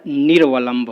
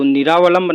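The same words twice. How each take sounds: First: निर्वलंब as 'nir-va-lamb', no long aa; corrected form. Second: निरावलंब with long aa, 'ni-raa-va-lamb'; wrong form. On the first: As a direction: run r into v in निर्वलंब, taking it slowly. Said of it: "होता है". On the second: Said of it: "नहीं होता है". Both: Shown as a demonstration.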